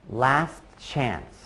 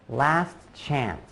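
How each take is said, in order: No difference in how they are said.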